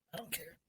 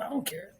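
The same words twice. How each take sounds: First: I don't care, repeated almost under the breath; dropped to near silence. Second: Said in the usual way. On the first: Shown as a demonstration. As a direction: let the second one fade to nothing. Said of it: "repeated much softer". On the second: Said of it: "repeated, second dropped".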